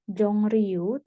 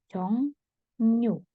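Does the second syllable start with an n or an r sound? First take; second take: r; n. First: The second syllable starts with an r sound. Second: The second syllable starts with an n sound. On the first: The speaker calls it wrong. "bukan Jongryu" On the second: The speaker calls it right. "tapi Jongnyu"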